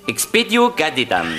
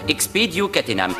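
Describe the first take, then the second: First: The last word is pronounced 'cadetam'. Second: The last word is pronounced 'catenam'. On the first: The speaker calls it wrong. "si on prononce mal l'incantation" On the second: The speaker calls it right. "la formule magique se prononce Expedio Catenam"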